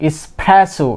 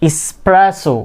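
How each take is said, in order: No difference in how they are said.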